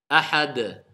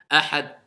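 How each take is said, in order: First: The final d bounces with a short echo. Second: The final d is stopped without an echo. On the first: The speaker calls it right. "Voilà pourquoi on dit ahad" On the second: The speaker calls it wrong. "si on le fait pas, ... Tu l'entendras pas"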